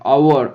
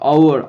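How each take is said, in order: First: The word begins with a vowel sound. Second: The same.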